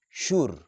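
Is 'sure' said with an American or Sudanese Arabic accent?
Sudanese. It is said with a Sudanese Arabic accent. The speaker calls it wrong. "sure is very common among Sudanese and a lot of people who use Arabic language"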